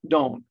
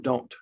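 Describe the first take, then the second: First: The final T sound is left off. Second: The final T sound is fully pronounced.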